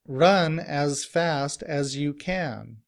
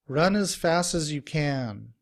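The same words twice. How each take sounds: First: Each word is said fully and separately. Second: Words run together quickly with reduced vowels.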